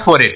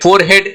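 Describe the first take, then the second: First: The 'head' part blends into the first part. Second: The 'head' part is said as a full word. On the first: The speaker calls it right. "आर ई एच, ये तीनों को हम क्या कर रहे हैं? मिला रहे हैं" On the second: The speaker calls it wrong. "फोरहेड नहीं बोलते हैं"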